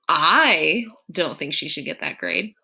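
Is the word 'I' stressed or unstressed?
stressed. The word 'I' carries strong stress.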